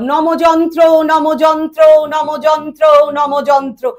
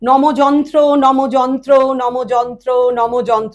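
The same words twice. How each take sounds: First: It is spoken at a raised high pitch. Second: It is spoken at a normal mid pitch. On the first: "তারপরে আপে বললাম" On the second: "প্রথমে scale normal ভয়েসে বললাম"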